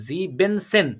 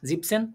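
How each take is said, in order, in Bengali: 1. এটি তিনটি দলে উচ্চারিত হয়, 'en' দুইবার সহ। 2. এটি দুটি দলে উচ্চারিত হয়, মাঝের 'en' ছাড়া। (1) "এন শব্দটা দুইবার আসছে" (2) "এখানে তো জিবেনকিন্তু এখানে জিপ"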